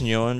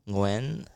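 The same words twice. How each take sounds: First: The name is said with an English-style pronunciation. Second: The name is said with a Vietnamese tonal pronunciation. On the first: It is adapted for English-speaking listeners. The speaker calls it wrong. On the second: It is the original native pronunciation. The speaker calls it right. "I think the proper pronunciation is Nguyen"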